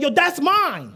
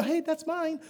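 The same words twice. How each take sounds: First: Emphatic claim. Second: Timid version. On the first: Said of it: "this gotta be emphatic". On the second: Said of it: "That's not what you do". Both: Shown as a demonstration.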